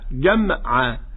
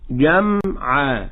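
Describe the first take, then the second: First: The م is released with a bouncing echo. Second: The م is held with a nasal hum. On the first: The speaker calls it wrong. "يأتون عند الميم ويقلقنونها" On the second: The speaker calls it right. "إنما هي حرف مغنون، فنقول جمعا"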